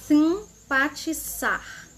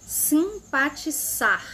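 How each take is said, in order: Both takes have the same delivery.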